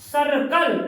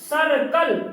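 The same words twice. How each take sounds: The two takes are said the same way.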